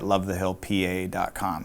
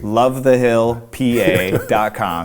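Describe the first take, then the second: First: The address is said at a normal, quick pace. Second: The address is said slowly and deliberately.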